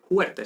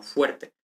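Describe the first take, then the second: First: "fuerte" pronounced "juerte"; dialectal aspirated F. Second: Said in the usual way. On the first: Shown as a demonstration. Teacher showing the non-standard form, "fuerte" said as "juerte". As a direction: swap the f of "fuerte" for a Spanish j. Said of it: "no se dice". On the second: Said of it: "prototípico".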